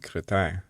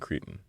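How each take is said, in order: First: The name is said with French pronunciation. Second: The name is said with English pronunciation. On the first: "in the French way, it would be Cretin" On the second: "but probably Cretin"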